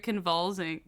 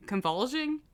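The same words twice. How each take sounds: First: Said in the usual way. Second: "convulsing" as a rising question; unsure of the word. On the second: Real, not acted. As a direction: try "convulsing" again, higher, questioning the word. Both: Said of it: "Whatever that word is".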